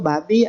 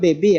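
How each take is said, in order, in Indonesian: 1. Diucapkan huruf demi huruf sebagai babi. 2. Diucapkan seperti baby dalam bahasa Inggris. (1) "saya baca itu babi loh" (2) "Pada bacakan baby lahir kan"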